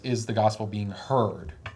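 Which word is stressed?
heard. The emphasis falls on the word heard. The concern is whether the message reaches people. "the liberal says"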